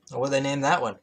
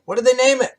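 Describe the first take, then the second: First: Said in the usual way. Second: Much higher and louder, put-on exasperated squeal; exasperated repeat. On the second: Real, not acted. Reader repeating the question in mock exasperation, high and loud. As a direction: throw the question up in mock despair.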